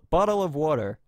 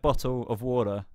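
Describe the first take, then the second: First: The t sounds are softened, American style. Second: The t sounds are clearly pronounced. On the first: "Americans don't pronounce the T's properly" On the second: "I would say like"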